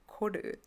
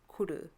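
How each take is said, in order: First: The first vowel sounds like 'oh'. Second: The first vowel sounds like 'oo'. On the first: The speaker calls it right. "It's actually kodu" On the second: The speaker calls it wrong. "I've been saying it wrong all my life"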